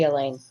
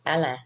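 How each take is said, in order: First: The name is said with an American English pronunciation. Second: The name is said with a Cajun French pronunciation. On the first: This is how most Americans say the name. "to Americans, it would be" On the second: This is how Cajun locals say the name. "if you're a coon ass, it would be called"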